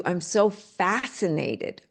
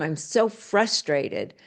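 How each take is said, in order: First: Slow fascinated wonder. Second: Slow frustrated sigh. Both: Shown as a demonstration. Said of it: "the tonality even sounds different".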